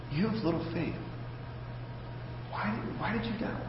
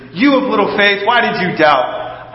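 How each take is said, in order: First: Much softer, close and intimate; private, personal rebuke. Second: Jesus scolding Peter for all to hear; a firm rebuke meant for the whole boat to hear; public rebuke. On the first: Jesus quietly asks sinking Peter one-on-one, hushed and personal. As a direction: say it just for him, softly up close. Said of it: "talking to him personally". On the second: Jesus rebukes Peter before everyone, a firm public rebuke. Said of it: "right next to the boat so everybody else can hear". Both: Retold or imitated.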